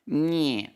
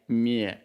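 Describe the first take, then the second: First: The sound is thinner and lighter. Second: The sound is fuller and heavier. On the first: The speaker calls it right. "It feels thinner in my voice. Like it feels more meh" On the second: The speaker calls it wrong. "instead of like meh"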